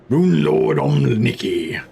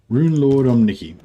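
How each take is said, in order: First: It is said in a deep voice. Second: It is said in a normal voice.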